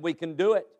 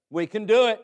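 First: Said in the usual way. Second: "We can do it" higher, with firm punch; emphatic repeat. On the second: Acted. Caleb urging belief, "We can do it" higher and emphatic. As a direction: insist on "We can do it", lifting the pitch.

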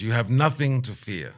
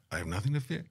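First: Elder's assurance, weight on NOTHING; confident reassurance. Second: Quieter stammered question, rising on FEAR; hesitant, half-amused query ending up on FEAR; doubtful echo. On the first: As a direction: stress on NOTHING, falling at the end. Elder reassures the doubtful visitor. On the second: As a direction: echo it back softly as a question, FEAR lifting. Doubtful echo of elder's assurance. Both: Retold or imitated.

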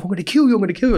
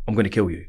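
First: Higher and louder, mock shouted threat; imitating a threat yell. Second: Said in the usual way. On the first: Retaliating inmate threatening the speaker, imitated loud yell. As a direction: bark the threat back like the furious inmate. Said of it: "And he was like". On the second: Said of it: "I said".

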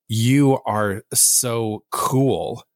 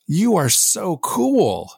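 First: Slow, deadpan "You are so cool" with no lift; flat sarcastic read. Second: Much higher, bright and gushing "You are so cool"; genuinely excited read. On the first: Friend reading a text aloud in a flat sarcastic tone. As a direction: drag it out, unimpressed, like a put-down. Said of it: "And they said it like that". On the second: Friend rereading the same text as an excited, sincere compliment. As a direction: say it like you truly mean the compliment. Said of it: "you're choosing how to read that". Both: Retold or imitated.

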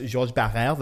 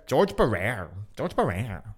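First: Georges Barrère in French pronunciation; correct French. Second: George as in English, Barrère as "buh-RARE"; butchered George Barrère with hard English r; mocking American mispronunciation. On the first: Shown as a demonstration. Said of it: "they butcher the fucking pronunciations". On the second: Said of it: "or fucking the worst".

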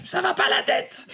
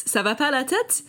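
First: Put-on much higher shrill-free parent telling off a kid, "va" falling hard; scolding parent. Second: High, lilting "Ça va pas la tête?" with a rising "tête"; teasing exclamation. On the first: Ben imitating parents yelling at kids in the park, scolding. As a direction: scold a naughty child across the park. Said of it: "I hear parents saying that". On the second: Shown as a demonstration. Jen showing listeners how the phrase is said, playfully incredulous. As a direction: toss it off like a playful are-you-crazy. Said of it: "you have to say it like that".

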